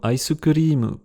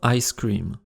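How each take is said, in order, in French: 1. Il se prononce comme un emprunt au japonais. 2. Il se prononce comme en anglais. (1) "mots anglais utilisés en japonais peuvent être pas mal déformés"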